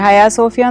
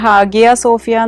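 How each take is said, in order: First: The first word has no g sound. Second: The first word has a clear g sound. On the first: This is how it is said in the local language. "അതിൻ്റെ Turkish ഉച്ചാരണം ഹയാ സോഫിയയാണ്" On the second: This is how people outside the country say it. "ഹാഗിയ Sophia എന്നാണ് നമ്മൾ പുറത്തൊക്കെ പറയുന്നത്"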